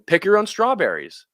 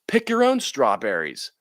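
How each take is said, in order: First: It is said in a cheerful, playful tone. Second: It is said in an annoyed, fed-up tone. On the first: This is a fun invitation for families. "This is something fun" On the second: The farmer is tired of dealing with the strawberries. "the farmer that's just fed up with these strawberries"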